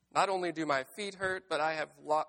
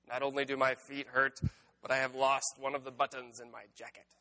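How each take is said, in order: First: Said in the usual way. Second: Lightly voiced Toad, grumbling over a lost button; Toad's voice. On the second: A narrator's reading. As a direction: read it in a light Toad character voice. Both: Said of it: "I missed the voice".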